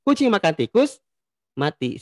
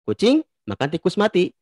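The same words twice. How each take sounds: First: There is a pause right after the word tikus. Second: There is a pause right after the word kucing. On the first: "komanya itu di kata tikus" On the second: "Kalau kita simpan di kata kucing"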